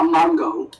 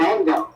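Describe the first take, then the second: First: The first vowel sounds like 'mon'. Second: The first vowel sounds like 'man'. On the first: The speaker calls it wrong. "Not mongo" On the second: The speaker calls it right. "Six, seven mango"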